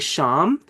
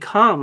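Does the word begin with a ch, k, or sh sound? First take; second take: sh; k. First: The word begins with an sh sound. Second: The word begins with a k sound. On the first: "like in machine" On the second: "like in chemistry"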